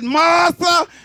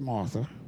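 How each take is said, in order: First: It is said with the voice raised. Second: It is said in a calm, plain voice.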